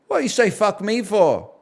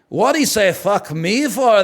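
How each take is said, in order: First: It is spoken in an English accent. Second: It is spoken in a Scottish accent. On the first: The speaker calls it wrong. "Why is he English in Inverness?" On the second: The speaker calls it right. "Is that better?"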